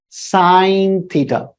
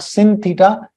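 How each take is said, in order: First: The first word sounds like 'sign'. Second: The first word sounds like 'sin'. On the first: The speaker calls it right. "it is pronounced as sine theta" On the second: The speaker calls it wrong. "This is not sin theta"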